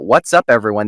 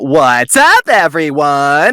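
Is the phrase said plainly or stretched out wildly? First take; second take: plain; stretched. First: It is said plainly at a normal pace. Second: It is said wildly, with sounds stretched out. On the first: "instead of saying like uh" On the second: "doing like crazy, ... stretching it as much as they could"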